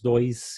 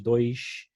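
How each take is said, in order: First: It is said in a Porto Alegre accent. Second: It is said in a Rio de Janeiro accent. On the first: "nós dizemos dois" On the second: "em vez de dois"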